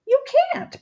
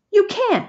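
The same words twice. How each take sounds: First: Very high squealing mock bellow. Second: Put-on much higher, childish yell; bully refusing outright. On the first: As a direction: top of his voice, cartoonish. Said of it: "bellowed Sammy". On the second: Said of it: "he yelled". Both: A narrator's reading.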